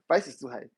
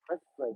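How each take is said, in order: First: It sounds surprised and genuinely engaged. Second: It sounds flat and brushing off. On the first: The person is seriously considering buying. "that's that's a good sign" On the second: The person is not really interested. "You can tell that you don't even know where to start off from here"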